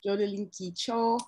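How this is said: The name is said with a Chinese pronunciation. "is how I think it is in Chinese"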